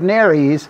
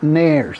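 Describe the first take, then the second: First: The word does not sound like the hair product. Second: The word sounds like the hair removal product. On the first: The speaker calls it right. "we have nares" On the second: The speaker calls it wrong. "not nares. That's a common American mispronunciation of the term"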